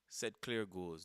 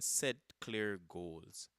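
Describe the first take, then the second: First: It is said at a normal pace. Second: It is said more slowly.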